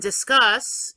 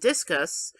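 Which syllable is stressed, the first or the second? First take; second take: second; first. First: The stress is on the second syllable. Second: The stress is on the first syllable. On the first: It means having a conversation. "the second half of the word is what's stressed, the cuss part" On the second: It names a thrown sports object. "the first syllable is stressed"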